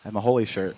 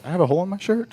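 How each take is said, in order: First: Said in the usual way. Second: Higher, rising in disbelief; realizing it with a jolt; surprised question. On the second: Real, not acted.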